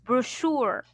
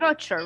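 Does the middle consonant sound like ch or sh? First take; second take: sh; ch. First: The middle sound is an sh sound. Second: The middle sound is a ch sound. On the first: The speaker calls it right. "We pronounce as brochure" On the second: The speaker calls it wrong. "you said"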